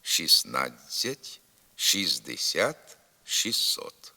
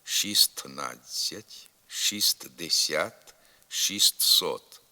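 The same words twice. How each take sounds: First: Slow Шістнадцять, шістдесят, шістсот without the first т; silent т. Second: Slow шістнадцять, шістдесят, шістсот with т sounded; spelled-out pronunciation. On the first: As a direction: say шіснадцять, шіздесят, шіссот. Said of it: "буква Т у них не вимовляється". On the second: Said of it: "Пишемо". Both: Shown as a demonstration.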